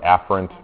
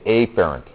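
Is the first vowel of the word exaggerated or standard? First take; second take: standard; exaggerated. First: The first vowel is said in the standard way. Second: The first vowel is drawn out, Southern-style. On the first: The speaker calls it right. "you should really say what, afferent" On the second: The speaker calls it wrong. "So I say afferent. So I pretend I'm like from some place somewhere, like some place in the deep south"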